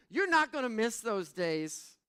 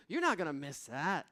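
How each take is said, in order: First: You're not gonna miss those days, with YOU'RE hit higher, louder and slow; stressed warning. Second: Said in the usual way. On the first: Shown as a demonstration. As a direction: lean hard on you're and drag the phrase out. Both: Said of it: "let me be the first person to tell you".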